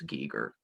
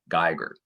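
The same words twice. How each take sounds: First: The name is pronounced unlike 'Geiger counter'. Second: The name is pronounced as in 'Geiger counter'. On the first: The speaker calls it right. "they seem to all pronounce it as Geiger" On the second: The speaker calls it wrong. "like as in Geiger counter"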